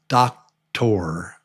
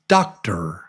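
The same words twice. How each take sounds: First: The last syllable has a full vowel. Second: The last syllable has a reduced schwa. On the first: The speaker calls it wrong. "So this is when it looks like doctor" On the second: The speaker calls it right. "but it's pronounced just like a T R, tur"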